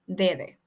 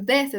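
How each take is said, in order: First: The s sound is dropped. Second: The s sound is pronounced. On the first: "decimos dede" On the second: "En lugar de decir desde"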